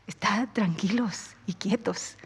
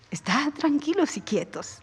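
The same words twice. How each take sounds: First: Hushed and lower, almost breathed; quiet, settling repeat; soft calm. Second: Said in the usual way. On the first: Shown as a demonstration. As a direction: let "tranquilos" sink into a softer hush.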